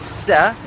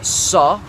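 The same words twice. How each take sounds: First: The s is plain, light and thin. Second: The s is emphatic, heavy and deep. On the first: The speaker calls it wrong. "not a sa" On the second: The speaker calls it right. "it's a sa with a sad"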